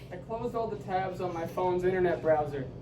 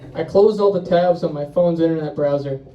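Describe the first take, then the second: First: The voice is very quiet and hard to hear. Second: The voice is louder and easier to hear. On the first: "Turn down the mic. ... Further. Further. There we go" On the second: "you can turn it up a little bit now"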